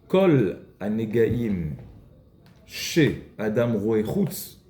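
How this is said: The break comes just after the word chutz. The faults one sees outside come from oneself. "il faut la couper d'une autre manière"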